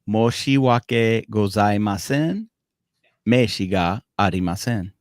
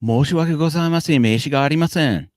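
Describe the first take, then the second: First: It is said slowly and deliberately. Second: It is said at natural native speed.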